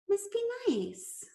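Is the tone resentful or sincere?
sincere. It sounds sincere and wistful.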